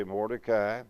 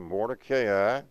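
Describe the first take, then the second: First: "Mordecai" in three syllables, MOR-de-kai; common pronunciation. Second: "Mordecai" with a long A, ending "KAY-eye"; marked pronunciation. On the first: Preacher giving what most people say, "Mordecai" as MOR-de-kai. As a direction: say "Mordecai" ending simply in "kai", no long A. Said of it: "Most people say Mordecai". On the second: Preacher following the diacritical marking, "Mordecai" as mor-de-KAY-eye. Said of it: "according to the diacritical marking". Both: Shown as a demonstration.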